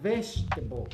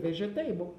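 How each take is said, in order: First: It is said with natural English sounds. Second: It is read letter by letter, Portuguese style. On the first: The speaker calls it right. "Mas não é vegetable, é vegetable" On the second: The speaker calls it wrong. "vai querer ler como se fosse estar ler em português"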